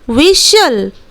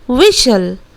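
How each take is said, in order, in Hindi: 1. t silent है; यह wissel जैसा लगता है। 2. t साइलेंट है; यह wissel जैसा लगता है।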